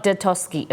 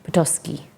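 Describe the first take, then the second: First: "Detoski" starting with a D sound; mispronounced "Detoski", D instead of P; wrong pronunciation. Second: "Petoskey" starting with a P sound, softly; careful, low "Petoskey", P not D; corrected pronunciation. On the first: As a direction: say "Detoski" with "Deh" at the front. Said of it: "it's not Detoski". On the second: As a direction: sound out "Petoskey" with "Puh" at the front. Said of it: "it is Petos". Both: Shown as a demonstration.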